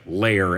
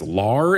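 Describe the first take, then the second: First: The vowel sounds like the one in 'air'. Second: The vowel sounds like the one in 'car'. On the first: The speaker calls it wrong. "I always thought that the singular was like lair" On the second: The speaker calls it right. "but it's lar"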